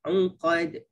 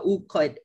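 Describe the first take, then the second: First: The opening ain is pressed in the throat. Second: The opening ain is plain, not throaty. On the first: The speaker calls it right. "Kena un" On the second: The speaker calls it wrong. "jangan uqad"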